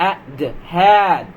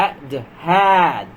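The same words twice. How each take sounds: The two takes are said the same way.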